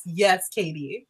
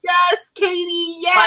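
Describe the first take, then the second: First: Softer, slower, heartfelt agreement; soft, slow yes. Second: Shouting yes up high, thrilled; excited shout. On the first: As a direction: let it drop quietly and slowly. Agreeing again, more softly. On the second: Excitedly agreeing with co-host. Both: Real, not acted.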